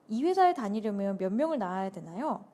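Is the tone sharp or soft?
sharp. The question is asked in a sharp, pointed tone. The speaker calls it wrong. "제가 지금 좀 뾰족하게 대답했죠?"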